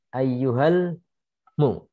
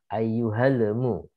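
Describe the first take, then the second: First: The L runs straight into the M. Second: An extra vowel separates the L and M. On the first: The speaker calls it right. "setelah membaca al langsung ke huruf mim" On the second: The speaker calls it wrong. "Tidak langsung ke huruf mim tapi ada jeda"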